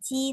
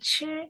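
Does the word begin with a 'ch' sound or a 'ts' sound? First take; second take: ts; ch. First: The word begins with a ts-like sound. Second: The word begins with a ch sound, teeth closed. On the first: The speaker calls it wrong. "bukan ci" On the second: The speaker calls it right. "tapi 吃"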